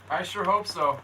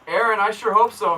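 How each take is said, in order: First: Said in the usual way. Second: "hope" called out loud to Aaron; answering Aaron's comment, calling out his name loudly; louder call-out. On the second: Real, not acted. Replying to a viewer's comment, called out louder.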